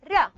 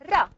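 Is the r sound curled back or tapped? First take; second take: tapped; tapped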